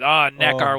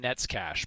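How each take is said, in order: First: The name ends with an 'r' sound. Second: The name ends with an 's' sound. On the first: This follows the spelling of the name. The speaker calls it wrong. "Nekar was great" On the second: This is the actual pronunciation. The speaker calls it right. "by the name of Stan Nekas"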